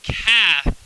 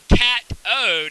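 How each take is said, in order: First: The middle consonant is a th sound. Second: The middle consonant is a plain t sound. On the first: The speaker calls it right. "it's it's cathode" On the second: The speaker calls it wrong. "It's not cat-ode"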